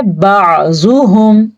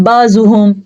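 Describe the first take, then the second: First: बाजुहुम with a clear ain; correct reading. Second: बाजुहुम with ain turned into alif; wrong reading. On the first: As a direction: pronounce बाजुहुम with a throat ain. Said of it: "हमने पढ़ना है". (सही अदायगी) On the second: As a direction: drop the throat sound in बाजुहुम. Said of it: "ये गलत है". (गलत अदायगी) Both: Shown as a demonstration.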